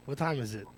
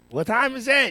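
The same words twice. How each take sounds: First: Said in the usual way. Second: High, loud demand for the time; called-out question. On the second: Real, not acted. Host repeats his question to the crew, loud and high. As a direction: belt the question out across the studio.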